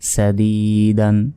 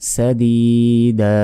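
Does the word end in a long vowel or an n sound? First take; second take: n sound; long vowel. First: The word ends with an n sound. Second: The word ends on a long vowel. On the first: The reader continues without stopping. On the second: The reader stops on this word.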